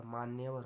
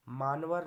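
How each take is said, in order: First: Said in the usual way. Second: मानवर said loudly as 'maan-var'; missing 'ya'. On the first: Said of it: "होता है". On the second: Shown as a demonstration. Teacher showing a mistake, मानवर as two blocks 'maan-var'. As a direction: drop the 'ya', giving मानवर. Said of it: "नहीं होता".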